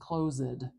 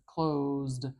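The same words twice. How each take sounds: First: An extra vowel separates the Z and D. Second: The D follows the Z with no vowel. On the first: The speaker calls it wrong. "I am not saying closed. That vowel sound is not doing any work" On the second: The speaker calls it right. "That D at the end goes right next to that Z"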